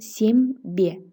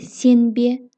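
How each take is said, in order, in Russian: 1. Согласный перед «б» звучит как «м». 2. Согласный перед «б» звучит как «н». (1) "при произношении слышим «сембе», «м»" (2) "пишется «не»"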